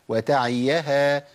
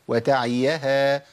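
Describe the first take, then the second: The two takes are said the same way.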